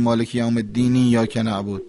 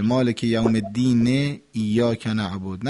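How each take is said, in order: First: الدین run straight into ایاک as "ed-diniyyak"; incorrect verse joining. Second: الدین said slowly as "ed-dine", joined to ایاک; slow linking with the last vowel of الدین audible; final vowel sounded. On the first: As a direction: swallow the final vowel of الدین, gluing it to ایاک. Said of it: "اینطوری نباید بگیم". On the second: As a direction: give الدین a clear final "e" before ایاک. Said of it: "باید این حرکات آخر رو بگیم". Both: Shown as a demonstration.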